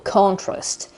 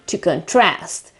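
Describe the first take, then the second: First: "contrast" stressed on CON; stress on first syllable. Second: "contrast" stressed on TRAST; stress on second syllable. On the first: Teacher repeats the noun for learners, stress on CON. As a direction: punch the O at the start of "contrast". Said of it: "the stress is on the first syllable". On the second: Teacher repeats the verb for learners, stress on TRAST. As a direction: land on the A at the end of "contrast". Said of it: "shift the stress to the second". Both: Shown as a demonstration.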